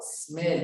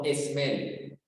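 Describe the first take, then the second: First: It starts directly with the s sound. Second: It starts with an added e vowel sound. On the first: The speaker calls it right. "Como si nos comiéramos la E" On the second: The speaker calls it wrong.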